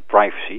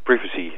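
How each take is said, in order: First: The word is said the commonly heard way. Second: The word is said the British way. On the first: The speaker calls it wrong. "in plaats van het veelgehoorde privacy" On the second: The speaker calls it right. "de juiste uitspraak van het woord privacy"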